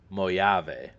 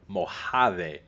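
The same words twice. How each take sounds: First: It is read the way an Eastern European would. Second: It is read the way a Spanish speaker would.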